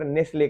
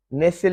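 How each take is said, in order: First: नेस्ले as "nes-lay", two syllables; brand name Nestle. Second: नेसल said with no t, the rejected form; नेसल as "nesal", the wrong take; wrong reading of Nestle. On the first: Teacher giving the brand's pronunciation. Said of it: "उच्चार थोड़ा सा different हो जाएगा". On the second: Teacher contrasting the wrong reading of Nestle. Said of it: "नेसल नहीं". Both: Shown as a demonstration.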